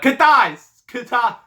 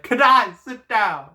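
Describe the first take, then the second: First: High shouted name, botched; yelling Kitai. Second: High loud command; yelling Kitai. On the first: Dad yelling at his son, shouted. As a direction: yell Kitai up high, loud. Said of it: "I botched that". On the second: Dad ordering his son to sit, loud shout. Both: Shown as a demonstration.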